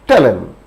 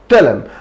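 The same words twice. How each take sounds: No difference in how they are said.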